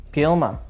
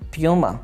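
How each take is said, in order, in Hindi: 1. पहला अक्षर 'pyoo' जैसा सुनाई देता है। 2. पहला अक्षर 'pyoo' जैसा सुनाई देता है।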